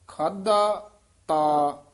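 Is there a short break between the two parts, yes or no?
yes. It is said with a short break.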